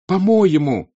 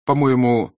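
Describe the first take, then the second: First: High, loud, furious repeat; rising into an angry cry; Natasha almost shouting. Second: Starting to shout. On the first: Natasha turning angrily on Petya, almost shouting. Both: Acted. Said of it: "вдруг закричала почти Наташа".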